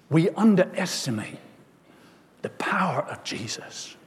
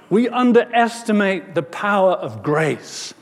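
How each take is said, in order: First: Soft, falling away to near-whisper; quiet, weighty statement with a pause midway; hushed preaching. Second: Raised, full-voiced declaration; preacher lifting the refrain out of a hush; emphatic preaching. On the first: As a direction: let it sink in, dropping to a hush. Hushed first take of sermon refrain. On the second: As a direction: proclaim it to the congregation. Refrain repeated, opening into full preaching. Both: Real, not acted.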